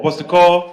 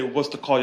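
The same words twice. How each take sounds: First: Loud, raised call to the crowd; rallying call. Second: Said in the usual way. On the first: Real, not acted. Activist rouses the crowd to chant, rallying call. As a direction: call it out for a response. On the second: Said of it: "when we say".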